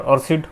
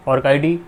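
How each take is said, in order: First: ORCID run together as "or-sid"; "orcid" as one word, or-sid; alternative pronunciation. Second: ORCID split as "orc" plus "I-D"; "orcid" with a hard c and spelled-out ID; first pronunciation. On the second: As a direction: say "orcid" as ork-eye-dee. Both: Shown as a demonstration. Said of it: "whatever you may pronounce".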